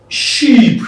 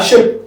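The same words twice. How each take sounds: First: "sheep" with long EE, drawn out; long-vowel sheep. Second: "sheep" said as short "shep"; short E replacing EE in "sheep"; shape-like vowel. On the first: Teacher contrasting vowels, "sheep" with long EE. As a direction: stretch the EE in "sheep". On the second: Teacher contrasting vowels, "sheep" turned into "shep". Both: Shown as a demonstration. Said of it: "But here you have sheep".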